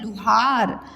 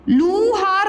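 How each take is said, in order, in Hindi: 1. पहला स्वर छोटा और जल्दी है। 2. पहला स्वर लंबा और खिंचा हुआ है।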